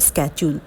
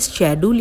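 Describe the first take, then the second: First: The word begins with an sk sound. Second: The word begins with an sh sound. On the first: "दोनों ही pronunciation ठीक है" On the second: "दोनों ही pronunciation ठीक है"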